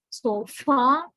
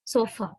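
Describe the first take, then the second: First: SO FAR, for sofa, with a heavy, long final A; wrong full vowel. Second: SO FAR, for sofa, with a short, weak final schwa; reduced schwa. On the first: Teacher demonstrating the wrong sofa, full final vowel. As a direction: stretch and stress the end of SO FAR. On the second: Teacher correcting sofa after the wrong one, reduced final schwa. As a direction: say SO FAR as sofa, stressed on SO, ending light. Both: Shown as a demonstration. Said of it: "no, wrong".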